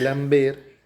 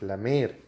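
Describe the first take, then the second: First: A 'b' sound follows the 'm'. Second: No 'b' sound follows the 'm'. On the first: The speaker calls it wrong. "En vez de lamber" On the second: The speaker calls it right. "es lamer"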